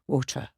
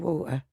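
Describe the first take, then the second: First: It is said in a standard accent. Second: It is said in a Cockney accent. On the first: This is how the family wants it said. The speaker calls it right. "I've got to say water" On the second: This is how the speaker naturally says it. The speaker calls it wrong. "I say water"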